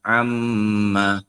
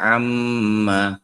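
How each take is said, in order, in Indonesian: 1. Mim ganda dibaca dengung. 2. Mim ganda dibaca dengung.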